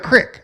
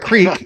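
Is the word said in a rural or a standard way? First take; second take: rural; standard. First: The word has a rural short vowel. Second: The word has a standard long vowel. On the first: "you got a crick" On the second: "You don't got a creek"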